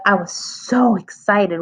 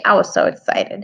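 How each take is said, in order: First: Slow excited reading, stretching "so". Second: Said in the usual way. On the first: Shown as a demonstration. Teacher showing pupils what an exclamation mark does, excited. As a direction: lean long and hard on "so" with excitement. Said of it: "But if I put ... with an exclamation mark". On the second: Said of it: "doesn't really sound like I'm excited".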